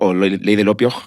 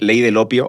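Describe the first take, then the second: First: It ends with an added throaty j sound. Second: It ends plainly, with no extra final sound.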